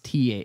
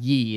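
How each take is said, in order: First: The word begins with a th sound. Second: The word begins with a y sound. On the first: The speaker calls it right. "It's actually a thorn" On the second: The speaker calls it wrong. "it's not ye"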